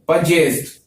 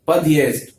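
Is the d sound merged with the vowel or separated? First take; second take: merged; separated. First: The d merges with the vowel into j. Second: A hard d, then a separate y sound. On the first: "दे और ये जय हो जाएगा" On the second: "यहाँ पर जो दे की साउंड है वो हार्ड आ रही है"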